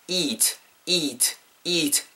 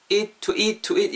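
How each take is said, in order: First: "eat" with a long stretched "ee"; long vowel. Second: "eat" cut short, like "it"; short vowel. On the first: Teacher models it for learners, "eat" held long. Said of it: "길게 발음해주세요". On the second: Teacher shows learners the mistake, "eat" too short. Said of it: "이렇게 짧게 하지 마시고요". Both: Shown as a demonstration.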